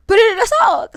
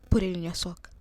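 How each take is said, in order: First: High, loud shouted command; urgent yell. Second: Said in the usual way. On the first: Retold or imitated. Her spirit warning her to hide money, urgent yell.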